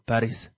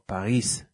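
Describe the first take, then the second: First: It is pronounced the English way. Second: It is pronounced the French way.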